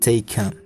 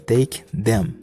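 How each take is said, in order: First: The word them is reduced to 'em. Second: The word them is said in full.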